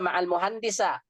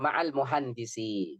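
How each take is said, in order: First: The last word ends in an a vowel. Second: The last word ends in an i vowel. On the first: The speaker calls it wrong. "Nggak boleh dibaca ma'al muhandisa" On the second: The speaker calls it right. "Yang benar ma'al muhandisi"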